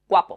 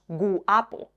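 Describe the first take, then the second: First: The u glides into the a as one syllable. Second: The u is a separate full vowel. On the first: The speaker calls it right. "decimos guapo" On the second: The speaker calls it wrong. "No decimos guapo"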